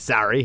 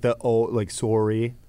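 First: The word is said with an American accent. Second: The word is said with a Canadian accent. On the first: "sorry in the States" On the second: "I really had to drop the Canadian accent. So a lot of it is like sorry"

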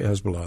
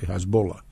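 First: The name is pronounced the common English way. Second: The name is pronounced the way locals say it. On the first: This is not how people there say it. The speaker calls it wrong. "they don't say Hezbollah" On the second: This is how people there say it. The speaker calls it right. "they say Hezbollah"

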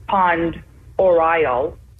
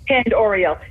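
First: The first word sounds like 'pond'. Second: The first word sounds like 'penned'. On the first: This is how it is usually said. The speaker calls it right. "I think the most typical pronunciation is Pond Oriel" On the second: This follows the spelling. The speaker calls it wrong. "It's hard for me to mispronounce it"

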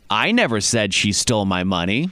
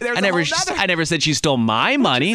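First: The stress is on the word 'I'. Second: The stress is on the word 'my'. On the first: Someone else said it. "meaning that I never said it. Somebody else said it" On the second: She took someone else's money. "Maybe ... She took someone else's"

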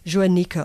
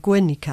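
First: The word begins with a soft sound. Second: The word begins with a hard g sound. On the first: "a je" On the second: "or a ge"

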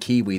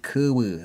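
First: It is said with clear ee vowels. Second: It is said with centralised uh-like vowels. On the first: "instead of saying Kiwi" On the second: "they say Kuwu. That's how they say it"

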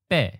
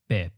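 First: The syllable is said on a high pitch. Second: The syllable starts mid and falls to low. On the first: "with the eighth tone, we start up close to the topmost line" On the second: "we drop the pitch down to the middle line and let it fall to the bottom as a third tone mid-falling"

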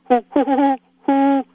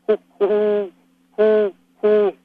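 First: The hoot is in a higher voice. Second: The hoot is in a lower voice. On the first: This is the female owl's hoot. "she does a female hoot" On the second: This is the male owl's hoot. "I do a male hoot ... different rhythm, lower voice quality"

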